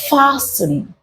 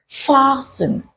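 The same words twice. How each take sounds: First: The T sound is left silent. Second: The T sound is left silent.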